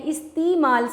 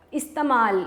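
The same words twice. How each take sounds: First: استعمال said carefully with the proper vowel; correct pronunciation. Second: استعمال said the usual mistaken way; common wrong pronunciation. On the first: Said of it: "لیکن استعمال نہیں ہے". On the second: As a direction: show how people wrongly say استعمال. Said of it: "ہم بولتے ہیں". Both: Shown as a demonstration.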